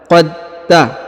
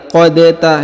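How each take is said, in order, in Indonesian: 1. Bunyi d menyatu langsung ke t. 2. Bunyi d dilepas dengan pantulan. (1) "langsung sambung masuk ke huruf ta" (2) "tidak lagi qad ta"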